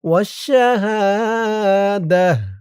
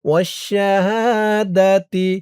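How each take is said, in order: First: The word ends with a soft h sound. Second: The word ends with a full ti sound. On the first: The reciter stops at this point. "যদি আপনি এই জিম চিহ্নতে অক্ফ করেন ... তাহলে এখানে উচ্চারণ করবেন ওয়াশ-শাহাদাহ" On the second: The reciter continues into the next word. "আর যদি এই জিম চিহ্নতে আপনি অক্ফ না করেন তাহলে পড়বেন ওয়াশ-শাহাদাতি"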